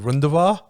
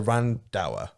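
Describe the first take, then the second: First: The surname is said with original Indian sounds. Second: The surname is said with anglicized English sounds. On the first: This is the name's original pronunciation. The speaker calls it right. "But it's Rundavar" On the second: This is how the family has always said it. The speaker calls it wrong. "So I say Randauer"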